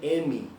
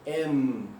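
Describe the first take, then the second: First: The name ends with an extra 'ee' vowel. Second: The name ends on a closed 'm' sound. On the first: The speaker calls it wrong. "não é M" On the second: The speaker calls it right. "Deixa os lábios juntos"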